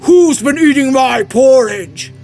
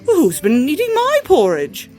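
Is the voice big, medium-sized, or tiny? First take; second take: big; medium-sized. First: It is said in a great big voice. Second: It is said in a middle-sized voice. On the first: "said with a great big voice" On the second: "said in a middle-sized voice"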